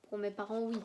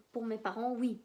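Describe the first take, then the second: No difference in how they are said.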